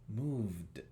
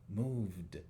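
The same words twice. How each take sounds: First: The word ends with a voiced d sound. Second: The same.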